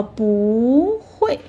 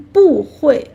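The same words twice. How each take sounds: First: 不 drawn out and rising, then 会 falling. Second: 不 falling, then 会 falling, louder; two falling tones. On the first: Teacher shows the easier way to say 不会, 不 rising. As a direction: glide up on 不, drop on 会. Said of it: "rising tone". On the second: Teacher shows the harder way to say 不会, both tones falling. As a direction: drop the pitch on both 不 and 会. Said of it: "sounds not that easy". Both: Shown as a demonstration.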